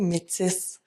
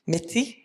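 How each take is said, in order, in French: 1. Le son du S final est prononcé. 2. Le son du S final est muet. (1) "On dit métis avec le S" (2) "il y a beaucoup de personnes qui vont dire métis"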